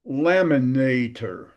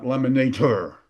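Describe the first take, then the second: First: Slow laminator as LAM-i-NA-tor, light ending; natural English laminator, weak tor; stress before last syllable. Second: Laminator as lami-na-TOR, ending punched; stress on last syllable. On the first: Teacher gives English example, laminator with unstressed final tor. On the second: Teacher shows the wrong accent, laminator stressed on final TOR. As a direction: shove the weight of laminator onto TOR. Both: Shown as a demonstration. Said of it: "before the last syllable".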